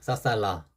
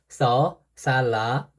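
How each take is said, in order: First: It is said flatly, without distinct tones. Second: It is said with distinct rising and falling tones. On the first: A simplified way to memorize the letter. "저는 그냥, 싸살라라 그냥 외웠어요" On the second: The letter's actual pronunciation. "실제로는"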